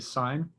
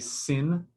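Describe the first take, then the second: First: It has a long vowel, rhyming with line. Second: It has a short vowel, rhyming with pin. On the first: The speaker calls it right. "you always say sine" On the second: The speaker calls it wrong. "you don't say sin"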